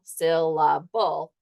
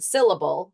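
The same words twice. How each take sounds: First: "syllable" said slowly, each of its three parts apart; teacher sounds out "syllable" in slow separate beats; syllable split into beats. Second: Said in the usual way. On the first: Shown as a demonstration. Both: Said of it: "the word syllable, syllable".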